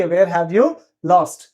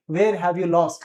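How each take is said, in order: First: Very slow, word by word for learners; slow drill. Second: Said in the usual way. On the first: Shown as a demonstration. Teacher to Hindi students, drilling the phrase very slowly. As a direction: spell it out slowly so students can repeat.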